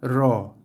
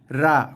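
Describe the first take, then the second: First: The ra is between thin and thick. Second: The ra is thin and light. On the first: The speaker calls it right. "di tengah-tengah antara ra dan ro" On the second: The speaker calls it wrong. "itu bunyi yang salah eh"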